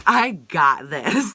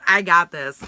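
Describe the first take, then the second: First: "I got this" stretched out very slowly; drawn-out emphasis. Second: Said in the usual way. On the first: Real, not acted. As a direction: repeat "I got this" slowly, weighting each word. Drawn-out repeat of boast.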